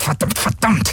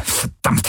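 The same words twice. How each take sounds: First: High, rising repeated curse; a panicked pilot's outburst, rising; exploding curse. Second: Voiceless hissed curse; a whispered curse before it erupts. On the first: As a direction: let the curse burst out high. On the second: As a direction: breathe the curse out without voice. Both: Acted. Galen cursing in panic.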